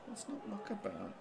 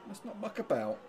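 First: Muttering the plea under the breath, softer; quiet mutter. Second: Said in the usual way. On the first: Real, not acted. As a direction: drop right down, half to yourself.

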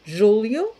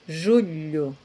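First: "Julio" as Portuguese "júlio", l plus i glide, rising. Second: "Julio" as Portuguese "julho", palatal lh, lower and falling. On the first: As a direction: contrast "Julio" with a clear tongue-tip l. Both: Shown as a demonstration. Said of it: "no me suena nada igual".

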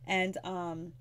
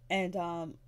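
No difference in how they are said.

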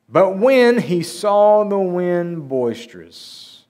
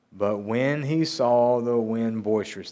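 First: Slow, loud, higher, drawn-out reading; dramatic scripture reading. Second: Said in the usual way. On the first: A narrator's reading. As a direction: stretch the verse out with big, raised drama. Dramatic reading of verse, then repeated plainly.

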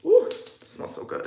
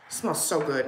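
First: Airy whispered ooh of pleasure; breathy delight. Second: Said in the usual way. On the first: Real, not acted. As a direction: breathe it out, savouring the scent. Smelling her new perfume.

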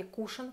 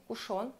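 First: "кушон" with the stress on the У; stress on first syllable. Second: Said in the usual way. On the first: Shown as a demonstration. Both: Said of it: "ударение на, на букву У".

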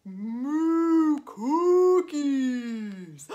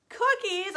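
First: Long, loud mooed words; drawn-out bellowing cow. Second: Higher-pitched, delighted exclamation; playful excited storyteller; excited echo. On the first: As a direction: moo the words out very slowly like a cow. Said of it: "What are you making, cow?". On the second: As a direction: repeat it brightly to excite little kids. Storyteller echoes the cow's answer. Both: Pretend.

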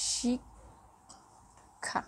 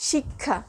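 First: শিক্ষা whispered slowly, barely voiced; teacher whispering শিক্ষা to show the sound; whispered demo. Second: শিক্ষা said normally as shikkha; teacher saying শিক্ষা plainly; plain demo word. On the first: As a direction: breathe শিক্ষা out in a slow whisper. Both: Shown as a demonstration. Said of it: "দেখো".

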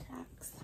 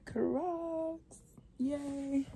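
First: Hushed, breathy tease; secretive whisper before the big reveal. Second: Higher, happy announcement of the shoes; bright exclaim after the whisper; excited reveal. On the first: Teasing reveal of her shoes. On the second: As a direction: proudly show them off. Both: Real, not acted.

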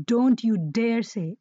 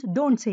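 First: Slow, weighted stress on "don't you dare say"; "don't you dare say" drawn out with emphasis; emphatic prohibition. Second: Said in the usual way. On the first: Shown as a demonstration. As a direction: spell out "don't you dare say" slowly as a firm warning. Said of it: "emphasizes with greater emphasis". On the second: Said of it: "you're just prohibiting".

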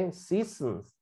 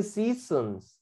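First: Seasons repeated softly and quickly as /sisns/; soft recap of seasons after correcting the student; quiet repeat. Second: Seasons said slowly and carefully as /sisons/; teacher correcting stations to seasons, slow careful model; correct pronunciation. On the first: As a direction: echo the word seasons under the breath. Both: Shown as a demonstration. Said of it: "se dice seasons".

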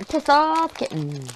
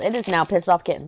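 First: Slow, savoured "Piss Off Kitten"; relishing the name. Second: Said in the usual way. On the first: Real, not acted. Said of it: "Sorry, I love that". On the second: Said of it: "I don't care what the website says".

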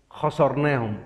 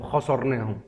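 First: خسرناهم said with a hard drawn-out final م; corrected word. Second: خسرناهم said cleanly with a short final م; corrected word. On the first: Self-correcting a word to viewers, خسرناهم with the closing م stretched. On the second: Self-correcting to viewers, خسرناهم clipped at the end. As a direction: say خسرناهم crisply, ending short. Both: Shown as a demonstration. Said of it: "مش خسرناهم".

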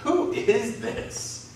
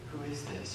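First: High, very slow awed question; fearful amazement. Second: Hushed wonder. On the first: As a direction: ask it stunned and afraid. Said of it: "In fear and amazement". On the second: Awed reaction to a miracle. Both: Acted.

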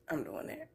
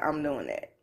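First: Breathless whispered repeat under the strain. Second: Said in the usual way. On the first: Real, not acted. In pain while getting off the couch, whispered.

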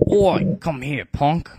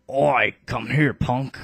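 First: Gruff, loud cockney-ish bark; a scrappy first go at a tough accent; first-take rough British. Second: Loud, slower British tough call; a British bruiser calling someone over; redone British accent. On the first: Bartray calling over Canius, loud British tough-guy voice. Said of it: "I'm gonna redo that". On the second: Canius's redone line, slower loud British tough-guy voice. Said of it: "Canius is gonna have the British accent". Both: Acted.

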